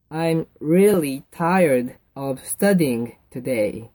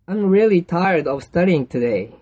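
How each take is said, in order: First: Very slow, word by word; slow model reading. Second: Said in the usual way. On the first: Shown as a demonstration. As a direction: spell it out slowly for learners. Model answer repeated slowly for learners. (一語ずつゆっくり読み上げる)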